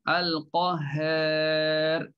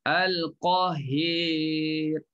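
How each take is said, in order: First: The vowel before the r is only slightly tilted. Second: The vowel before the r is strongly tilted. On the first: "semuanya dia akan taklid" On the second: "Kalau imalah bunyinya lain. ... dia condong lagi"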